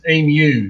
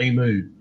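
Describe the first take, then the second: First: The word ends with a 'yoo' sound. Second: The word ends with an 'oo' sound. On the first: The speaker calls it right. "It's got U, emu" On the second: The speaker calls it wrong. "It hasn't got double O on the end"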